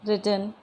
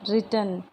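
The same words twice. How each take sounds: Both takes have the same delivery.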